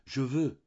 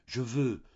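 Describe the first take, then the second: First: Higher, louder, even more pressing; passionate insistence repeated. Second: Higher, louder, pressing hard; passionate insistence. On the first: Mouret repeating his wish to Denise, heightened passion. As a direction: push the repeat harder. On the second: Tortured Mouret insisting to Denise, passionate demand. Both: A narrator's reading. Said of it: "répétait avec passion".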